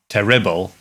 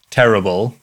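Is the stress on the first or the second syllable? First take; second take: second; first. First: The stress is on the second syllable. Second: The stress is on the first syllable. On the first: The speaker calls it wrong. "it would sound weird if I said terrible" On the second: The speaker calls it right. "you would put the emphasis on the ter bit"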